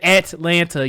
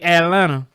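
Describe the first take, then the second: First: The T sounds are clearly pronounced. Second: The T sounds are dropped. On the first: The speaker calls it wrong. "You don't say Atlanta" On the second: The speaker calls it right. "You ain't saying no T's up in Atlanta"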